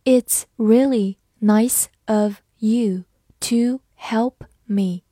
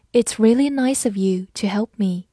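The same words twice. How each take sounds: First: Slow model reading with clear gaps between words. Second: Said in the usual way. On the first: Shown as a demonstration. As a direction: read slowly, word by word. (慢速逐词朗读) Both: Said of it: "慢慢来读".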